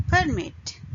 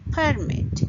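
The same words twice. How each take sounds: First: "Permit" as per-MIT; stress on second syllable. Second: "permit" as PER-mit, high start then falling; stress on first syllable. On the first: Teacher giving the verb to allow, "Permit" stressed last. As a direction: lean on the end of "Permit". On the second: Teacher giving the noun for permission, "permit" stressed first. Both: Shown as a demonstration. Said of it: "stress on the first syllable".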